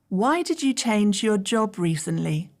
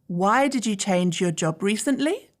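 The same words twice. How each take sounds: First: The pitch falls at the end. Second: The pitch rises at the end. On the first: The speaker calls it right. "you use falling intonation. Listen carefully to the downward pitch in my voice" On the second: The speaker calls it wrong. "It would sound very strange if I used rising intonation with these questions"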